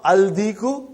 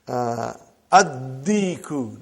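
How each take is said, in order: First: Aldiku, the l sounded before the d; wrong form with lam. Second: Addiku, lam silent, the d doubled, said slowly; correct sun letter form. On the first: Teacher showing students the mistake: aldiku with the l sounded. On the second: Teacher showing students the right way: slow addiku with a doubled d. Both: Shown as a demonstration. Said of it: "not aldiku".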